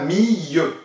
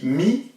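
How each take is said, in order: First: The word ends with a y-like sound. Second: The word ends with a clear l sound. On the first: The speaker calls it wrong. "il ne se dit pas mille" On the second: The speaker calls it right. "il se dit mille"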